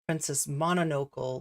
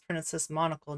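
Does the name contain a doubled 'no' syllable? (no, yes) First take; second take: yes; no. First: The name is said with a repeated 'no' syllable. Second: The name is said with no repeated syllable. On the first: The speaker calls it wrong. "not Princess Mononocle, like I always want to say" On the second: The speaker calls it right. "but it's Princess Monocle"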